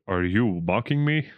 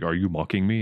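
First: Put-on mimicking voice, slightly raised; mocking Thor's voice. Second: Said in the usual way. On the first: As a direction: echo the question back in a mock imitation. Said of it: "mocking Thor's voice". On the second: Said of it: "Thor was like".

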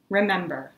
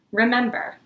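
First: Said in the usual way. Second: Higher, louder first remember; urgent call. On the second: Acted. Poet calling out to the oppressors, urgent and louder. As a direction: cry it out as a rallying call.

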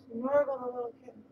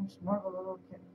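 First: Put-on bright baby-talk to a kitten; cooing pet talk. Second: Said in the usual way. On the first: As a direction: sing it up to the cat.

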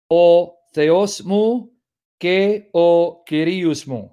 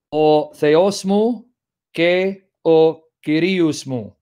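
First: Very slow "O Theos mu ke o Kyrios mu", pure Greek vowels, not Anglicized; Greek pronunciation. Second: Slow, careful "o Theos mu ke o Kyrios mu" with Greek vowels, each word drawn out; Greek pronunciation. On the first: Repeating the Greek for students, slow and careful Greek pronunciation. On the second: Reading the Psalm's Greek to students, slowly in Greek pronunciation. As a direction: sound out "o Theos mu" like a Greek speaker, syllable by syllable. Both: Shown as a demonstration. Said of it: "Trying to pronounce like Greeks would".

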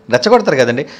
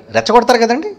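First: రెచ్చగొడతారు repeated lower, settled and falling. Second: రెచ్చగొడతారు said with a rising, asking end; rising question. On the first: Preacher confirming his point, lower and settled. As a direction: drop రెచ్చగొడతారు low and state it. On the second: Preacher asking the congregation, rising tone. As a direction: ask రెచ్చగొడతారు కదండి upward. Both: Shown as a demonstration.

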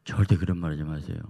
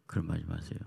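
First: Loud insistent no with 절대 hit hard; loud stern warning, stressing 절대; firm refusal. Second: Said in the usual way. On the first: Retold or imitated. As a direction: shut the idea down firmly. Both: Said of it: "그래서 내가".

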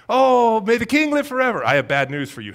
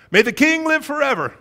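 First: High, loud, gushing compliment before bad news; butter him up first; fawning flattery. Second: High, loud, fawning flattery; fawning courtier. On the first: Courtiers buttering up the king before bad news, gushing. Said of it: "always begin with a compliment". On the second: Acted. Courtiers flattering the king before gossiping, fawning. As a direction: lay the flattery on thick.

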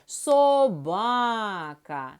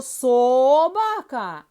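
First: "Собака" slow, with long stressed middle ба; correct stress, called. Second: "собака" stressed loudly on the first syllable со; wrong stress. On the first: Teacher gives correct stress, calling out. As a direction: call "Собака" slowly, holding БА. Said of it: "А як правильно?". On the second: Teacher tests wrong stress on children, questioning. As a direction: stretch СО in "собака", loud, rushing the rest. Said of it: "Можливо". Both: Shown as a demonstration.

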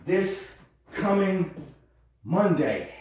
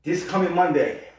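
First: Slow, stretched This coming; drawn out. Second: Said in the usual way. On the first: Shown as a demonstration. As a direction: draw out the words slowly. Repeats the phrase several ways.

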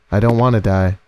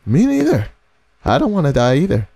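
First: Said in the usual way. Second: High-pitched squeal falling back down; squeaky, frightened reply; scared agreement. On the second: Acted. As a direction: squeak it out in mock panic. Scared reply to game character's line.

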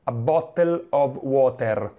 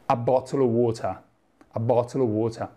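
First: "a bottle of water" read slowly as written, every letter sounded; "a bottle of water" as written, slow with a full T and R; spelled-out reading. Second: "a bottle of water" in BBC British, crisp T, no final R; "a bottle of water" in standard British, the R dropped. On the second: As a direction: say it like a BBC announcer. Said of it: "nell'inglese britannico standard". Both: Shown as a demonstration.

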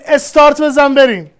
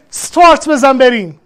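First: استارت as "estart", e before the s; "estart bezan berim", with two-syllable استارت; Persian pronunciation. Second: استارت as "start", no vowel before the s; "start bezan berim", with one-syllable استارت; foreign pronunciation, rejected. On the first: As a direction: add an opening e to استارت. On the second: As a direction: open استارت straight on the "st" cluster. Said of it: "ما نمیگیم". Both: Shown as a demonstration.

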